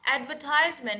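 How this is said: It is said with an American pronunciation. "is the American pronunciation"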